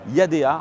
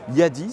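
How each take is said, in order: First: The name is said in a Western way. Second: The name is said in a Chinese way.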